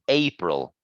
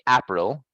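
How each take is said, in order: First: The first vowel is a long ay sound. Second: The first vowel is short, as in apple. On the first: The speaker calls it right. "It's a April" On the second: The speaker calls it wrong. "the fruit is like a apple, but for the month we don't say April"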